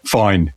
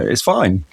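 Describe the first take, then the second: First: It is said in a disappointed, curt way. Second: It is said in a happy, pleased way.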